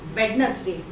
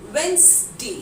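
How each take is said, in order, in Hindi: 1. हर अक्षर बोला जाता है, बीच वाले d समेत। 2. बीच का d साइलेंट है, इसलिए दो सिलेबल होते हैं। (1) "बिल्कुल गलत उच्चारण है" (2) "द करेक्ट प्रोनाउंसिएशन"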